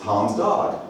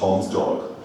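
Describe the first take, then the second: First: The vowel in 'dog' sounds American. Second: The vowel in 'dog' sounds British. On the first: "So now I could say Tom's dog" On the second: "as opposed to Tom's dog"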